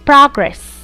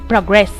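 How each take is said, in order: First: The stress is on the first syllable. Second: The stress is on the second syllable. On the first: It is used as a noun. "pronounced making the stress in the first syllable" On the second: It is used as a verb. "their stress changes to their second syllables"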